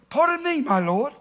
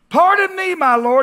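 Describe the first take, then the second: First: It is said in a put-on British accent. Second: It is said in the speaker's plain accent.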